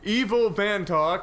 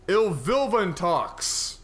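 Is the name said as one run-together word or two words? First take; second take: two words; one word. First: The name is split into two separate words. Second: The name is run together as one word. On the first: The speaker calls it right. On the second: The speaker calls it wrong.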